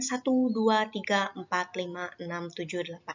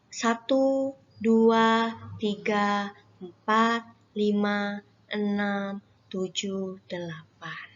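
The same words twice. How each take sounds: First: The counting is said fast. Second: The counting is said slowly.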